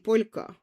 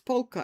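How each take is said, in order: First: The word is said with Estonian pronunciation. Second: The word is said with English pronunciation. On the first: "in Estonian it would be polka" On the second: "in English it's polka"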